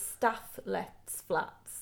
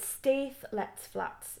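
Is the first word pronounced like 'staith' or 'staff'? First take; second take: staff; staith. First: The first word sounds like 'staff'. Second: The first word sounds like 'staith'. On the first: The speaker calls it right. "but it's" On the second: The speaker calls it wrong. "I always want to call it"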